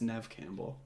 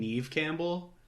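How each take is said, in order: First: The first name has a short 'e' vowel. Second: The first name has a long 'ee' vowel. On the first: The speaker calls it right. "it's Nev Campbell" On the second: The speaker calls it wrong. "I just was pronouncing it wrong"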